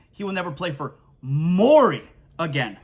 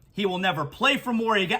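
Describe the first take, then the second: First: Morey pushed out with a long fall; stress on Morey. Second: Said in the usual way. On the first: Shown as a demonstration. Host clarifying Harden's quote, stress on Morey. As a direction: lean on the name Morey. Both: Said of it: "I don't think he means he won't play for the Sixers".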